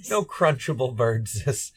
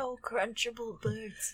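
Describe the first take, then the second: First: Slow, lightly voiced Smeagol echo; drawn-out hint of Smeagol; Gollum quote. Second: Slow, lightly voiced Smeagol; a hint of Gollum, drawn out; Gollum quote.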